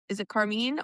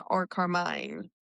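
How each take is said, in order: First: Carmine said as car-MEEN; questioning car-MEEN for Carmine; ee pronunciation. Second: Carmine said as CAR-mine; long-i pronunciation. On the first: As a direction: end Carmine with a long "ee", as in "bean". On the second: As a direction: end Carmine like the word "mine". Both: Shown as a demonstration.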